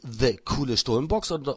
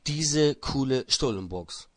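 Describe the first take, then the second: First: The first word sounds like English 'the'. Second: The first word sounds like German 'diese'. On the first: The speaker calls it wrong. "the coole Stullenbox oder" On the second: The speaker calls it right. "Einfach bloß diese coole Stullenbox"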